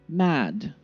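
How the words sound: The vowel is short and crisp. "British style"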